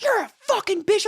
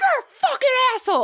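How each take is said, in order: First: High, loud mock yell of the man; mocking shout. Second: Very high, loud, fast yell; furious shout. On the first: Man at the gas station yelling at her, high mock shout. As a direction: fling the insult back high and loud. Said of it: "he's like". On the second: Retold or imitated. She yells back at the rude driver, high furious shout. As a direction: scream the insult right back. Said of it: "I'm like".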